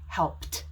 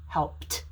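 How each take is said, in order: First: The word is said with one syllable. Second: The word is said with one syllable.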